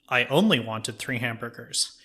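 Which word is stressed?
only. The stress falls on the word 'only'. "you stress a different word in the sentence"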